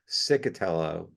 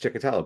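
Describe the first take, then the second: First: The name begins with an 's' sound. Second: The name begins with a 'ch' sound. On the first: The speaker calls it wrong. "if we ever hear the one that is that is pronounced Cicatello" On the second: The speaker calls it right. "and it's Chikatello"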